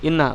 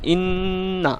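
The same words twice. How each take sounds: First: The doubled n passes quickly without a hold. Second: The doubled n is held with a brief stop. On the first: The speaker calls it wrong. "ইন্না এরকম বলে চলে আসা যাবে না" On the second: The speaker calls it right. "একটু থেমে একটু থেমে উচ্চারণ করতে হবে, যেমন ইন্না এরকম"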